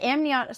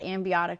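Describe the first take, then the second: First: The word is said without any B sound. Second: The word is said with a B sound inside. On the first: The speaker calls it right. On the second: The speaker calls it wrong.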